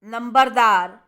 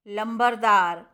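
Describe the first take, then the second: First: लंबरदार said as nambardar. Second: लंबरदार said as lambardar, with l; l form. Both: Shown as a demonstration. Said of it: "ना और ला का".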